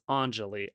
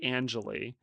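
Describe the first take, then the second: First: The first syllable sounds like 'on'. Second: The first syllable sounds like 'an'. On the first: The speaker calls it right. "I mispronounced it. It's Anjali" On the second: The speaker calls it wrong. "I want to say Anjali, and then when I have to say on"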